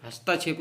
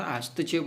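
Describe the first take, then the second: First: हस्तक्षेप with long आ after स्त; wrong pronunciation. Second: हस्तक्षेप with short त; correct pronunciation. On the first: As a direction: say हस्ता-क्षेप, stretching the middle vowel. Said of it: "हस्तक्षेप नहीं होता". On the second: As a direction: keep the middle of हस्तक्षेप short. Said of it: "हस्तक्षेप होता है". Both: Shown as a demonstration.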